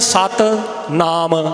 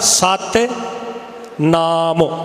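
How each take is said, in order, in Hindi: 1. दोनों शब्दों के छोटे अंतिम स्वर छोड़ दिए जाते हैं। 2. दोनों शब्दों के छोटे अंतिम स्वर बोले जाते हैं। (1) "ना मैं सिहारी बोली ना मैं औंकड़ बोलिया" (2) "सिहारी भी बोली है, औंकड़ भी बोलिया"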